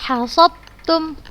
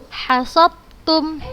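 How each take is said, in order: Both takes have the same delivery.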